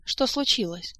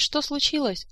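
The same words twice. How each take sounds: First: Mildly surprised question, pitched up; light acted surprise. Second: High-pitched indignant echo; acted squeal of disbelief and accusation; outraged squeal. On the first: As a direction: ask in innocent puzzlement. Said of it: "удивилась Эльвира". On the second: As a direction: throw the question back in outrage. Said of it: "взвизгнула графиня Манкар". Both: A narrator's reading.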